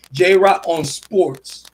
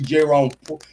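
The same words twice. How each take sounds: First: J Ra On Sports spelled out slowly and firmly; slow down and say J Ra On Sports clearly, a firm correction; deliberate slow plug for J Ra On Sports; slow, careful self-correction. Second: Said in the usual way. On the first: Shown as a demonstration.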